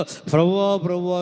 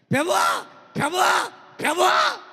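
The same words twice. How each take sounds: First: Said in the usual way. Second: High shouted cries of Lord; loud calling out. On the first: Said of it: "అని పిలుచువాడు". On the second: Retold or imitated. Preacher mimics a believer crying to God, shouting. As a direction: call out to the Lord at the top of your voice. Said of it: "ప్రభు అంటాడు".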